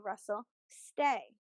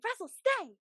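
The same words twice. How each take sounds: First: It is said in a calm, flat voice. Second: It is said in an excited, lively voice. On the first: The dog should stay still. The speaker calls it right. "stay and do something calm" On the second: The dog should come. The speaker calls it wrong. "because that's exciting"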